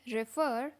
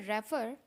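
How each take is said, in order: First: रेफर with a short i, ri-FER, slightly slow; correct refer. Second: रेफर with an open e, REF-er; wrong refer. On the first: Teacher shows the correct refer. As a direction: say रेफर as ri-FER, stress on the end. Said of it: "ये होता है रेफर". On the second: Teacher shows the common wrong refer. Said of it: "लेकिन ये रेफर नहीं होता है". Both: Shown as a demonstration.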